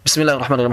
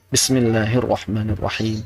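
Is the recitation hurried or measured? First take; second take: hurried; measured. First: It is recited very fast and rushed. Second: It is recited at a measured, unhurried pace. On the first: The speaker calls it wrong. "Bukan seperti itu. Itu ngebut" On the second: The speaker calls it right. "Bisa seperti itu kalau sir"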